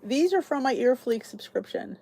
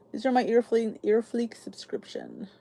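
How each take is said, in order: First: Said in the usual way. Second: Whispered repeat. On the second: Real, not acted. Repeats subscription name, hushed.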